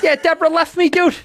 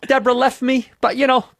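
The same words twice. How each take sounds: First: High, loud Boston-guy voice; louder, higher comic lament; Bill Burr. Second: Loud, slightly raised Boston-guy voice; loud Boston shrug over a breakup; Bill Burr. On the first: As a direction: pitch the breakup up high and loud. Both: Acted. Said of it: "I'm doing my Burr".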